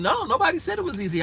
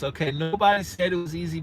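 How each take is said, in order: First: Much higher, quicker "nobody said it was easy"; high, fast insistence on "nobody"; emphatic agreement. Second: Said in the usual way. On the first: Real, not acted. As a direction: jump up in pitch on "nobody" and rush on. Repeats the comment back as reply.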